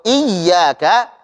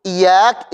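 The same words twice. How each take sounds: First: "iyyaka" slowly with a doubled ya; ya bertasydid. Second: "iyak" with a single light ya; tanpa tasydid. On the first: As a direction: press and hold the ya in "iyyaka". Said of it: "Kalau iyyaka artinya adalah hanya kepadamu". ("iyyaka", ya ditekan dengan tasydid) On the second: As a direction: say "iyak" without doubling the ya. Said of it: "Kalau ya-nya tidak bertasydid". ("iyak", ya tidak ditekan) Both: Shown as a demonstration.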